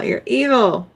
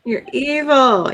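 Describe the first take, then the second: First: Said in the usual way. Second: Slow, drawn-out You're evil with weight on evil; mock accusation. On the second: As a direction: drag out You're evil like a playful scold.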